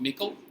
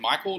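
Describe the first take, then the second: First: The first syllable sounds like 'mick'. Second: The first syllable sounds like 'my'. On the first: The speaker calls it wrong. "not Mickle, or any other strange pronunciation" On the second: The speaker calls it right. "That's Michael as in Michael"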